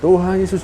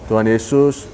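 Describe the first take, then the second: First: It is said with intense, heartfelt emotion. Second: It is said in a plain, calm way. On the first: This is how a Pentecostal prays. "Jadi menggunakan perasa sepenuh hati gitu loh" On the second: This is how a Protestant prays. "Kalau kalau Protestan tuh ya biasa aja"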